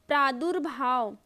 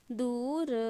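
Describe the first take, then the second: First: Said in the usual way. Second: प्रादुर्भाव softly split, "praa-du-ra-bhaa-va"; low-key, separated sounds in प्रादुर्भाव; sounded out. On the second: Shown as a demonstration. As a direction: dictate प्रादुर्भाव syllable by syllable. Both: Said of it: "वैसे ही लिख के देखिएगा".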